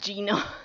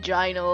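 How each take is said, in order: First: The first syllable rhymes with 'gee'. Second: The first syllable rhymes with 'guy'. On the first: "Very Italian" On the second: "My first instinct is to say gyno, like gynecologist"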